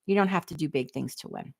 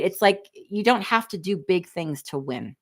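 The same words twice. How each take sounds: First: Softer, driving the point home; quiet repeat. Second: Said in the usual way. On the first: Shown as a demonstration. Repeating her point softer to viewers. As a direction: let it sink in gently.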